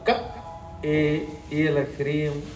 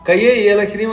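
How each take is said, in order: First: A pause follows the first syllable. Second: The first syllable runs straight into the next. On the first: The speaker calls it right. "కా తర్వాత ఆపి ఏ అనాలి" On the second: The speaker calls it wrong. "అని చదివారంటే ఫలితం పోతుంది"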